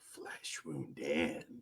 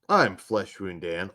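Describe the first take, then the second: First: It is said in a put-on sexy voice. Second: It is said in his normal voice.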